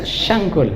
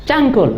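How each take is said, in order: First: The word begins with an 'sh' sound. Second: The word begins with a 'ch' sound. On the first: "kalau C itu biasa pakai shin" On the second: "Cangkul, enggak bisa tuh"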